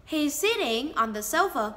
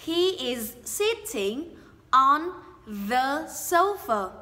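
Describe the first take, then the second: First: "He's sitting on the sofa" run together, words linked smoothly; linked speech. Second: Said in the usual way. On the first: Shown as a demonstration. Teacher shows learners how the words link together. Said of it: "Mình nói nối âm thành he is sitting". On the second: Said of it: "nối âm".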